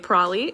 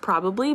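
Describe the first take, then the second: First: The word is shortened, with syllables dropped. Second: The word is said with all its syllables. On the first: "I say probably" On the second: "instead of probably"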